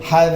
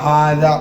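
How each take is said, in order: First: The first vowel is short. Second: The first vowel is drawn out long. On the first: The speaker calls it wrong. "ഹദ എന്നല്ല" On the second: The speaker calls it right. "നീട്ടിയാണ് പറയേണ്ടത്"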